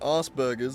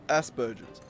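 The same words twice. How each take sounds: First: The word is said in an American way. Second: The word is said in an Australian way. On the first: "Eminem calls it fucking Asperger's" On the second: "in Australian English, like, I've always called Asperger's Asperger's"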